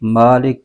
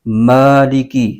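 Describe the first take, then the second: First: The first vowel is cut short. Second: The first vowel is drawn out long. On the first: The speaker calls it wrong. "नहीं पढ़ेंगे" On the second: The speaker calls it right. "इसको एक अलिफ खींच के पढ़ेंगे"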